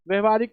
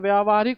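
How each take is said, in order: First: The first syllable has a short 'vya' vowel. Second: The first syllable has a long 'vyaa' vowel. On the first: The speaker calls it wrong. "गलत है बच्चा।" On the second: The speaker calls it right. "ये बिल्कुल सही है।"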